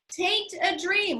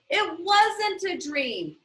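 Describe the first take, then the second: First: "Tain't" said as one clipped word, dialect style, slow; folksy dialect "Tain't". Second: Said in the usual way. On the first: Shown as a demonstration. Teacher demonstrates the dialect for the class, "Tain't" said slowly. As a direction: drop the "it" and slide into "Tain't a dream". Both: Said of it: "Like, it ain't a dream".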